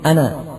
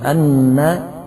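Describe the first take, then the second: First: The n sound is short, not doubled. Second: The n sound is held long, doubled. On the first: The speaker calls it wrong. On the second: The speaker calls it right.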